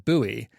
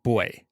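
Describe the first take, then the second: First: It is said the American way, unlike boy. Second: It is said the British way, like boy. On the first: "the correct American pronunciation of it is buoy" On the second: "the U K pronunciation of buoy is sounds more like boy"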